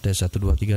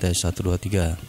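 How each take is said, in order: First: The voice has a thicker, boosted bass sound. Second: The voice has a plain, flat sound. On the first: "ini lebih tebal suara mikrofonnya" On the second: "seperti ini hasilnya"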